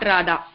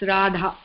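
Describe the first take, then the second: First: The d sound has no breath after it. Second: The d sound has breath after it. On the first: The speaker calls it wrong. "It's not Radha" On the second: The speaker calls it right. "The Dha of Radha is aspirated again"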